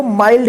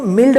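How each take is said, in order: First: माइल्ड said with the diphthong ai, as maild; correct pronunciation. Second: मिल्ड said with a short i, as mild rhyming with filled; the mistaken मिल्ड, short vowel; wrong pronunciation. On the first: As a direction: model the right माइल्ड with ai. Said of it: "इसको माइल्ड ही पढ़िएगा". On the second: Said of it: "इसको मिल्ड मत पढ़िएगा". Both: Shown as a demonstration.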